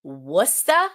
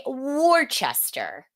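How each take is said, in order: First: Worcester said as "Wuster", dropping the r; Worcester squeezed to "WUS-tuh"; Worcester the way locals say it; local pronunciation. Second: Worcester said in full as "War-chester"; Worcester the way tourists get it wrong; outsider mispronunciation. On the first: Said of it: "It is pronounced Worcester". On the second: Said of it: "Most people say Worcester". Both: Shown as a demonstration.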